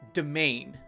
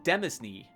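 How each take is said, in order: First: The word is said like main, without s. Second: The word is said with an s sound inside. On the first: It is the accepted pronunciation. The speaker calls it right. "but it's pronounced domain" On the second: It is read the way it is spelled. The speaker calls it wrong. "If I was to read it as I see it s- spelled, I would say"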